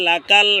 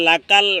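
The two takes are said the same way.

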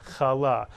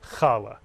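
First: The stress is on the second syllable. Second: The stress is on the first syllable. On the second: "Many people say challah"

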